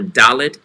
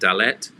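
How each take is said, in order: First: The stress is on the first syllable. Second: The stress is on the second syllable. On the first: The speaker calls it right. "or Dalet" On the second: The speaker calls it wrong. "instead of saying Dalet"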